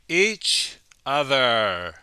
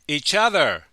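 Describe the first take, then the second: First: The phrase is said slowly and carefully. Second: The phrase is said quickly and smoothly.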